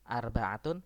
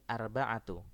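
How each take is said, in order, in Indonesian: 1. Kata ini diakhiri bunyi n. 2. Kata ini diakhiri vokal tanpa n.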